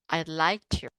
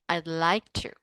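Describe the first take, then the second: No difference in how they are said.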